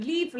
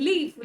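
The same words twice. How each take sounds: The two takes are said the same way.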